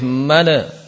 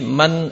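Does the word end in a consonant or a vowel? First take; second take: vowel; consonant. First: The word ends with an added vowel. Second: The word ends on a closed consonant. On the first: The speaker calls it wrong. "tidak boleh mana" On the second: The speaker calls it right. "ketika sukun ingat jangan sampai kol-kolah. Seperti man"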